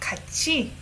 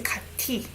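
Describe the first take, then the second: First: The middle consonant is a ch sound. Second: The middle consonant is not a ch sound. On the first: The speaker calls it right. "This is chi sound" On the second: The speaker calls it wrong. "You don't pronounce it as 같이"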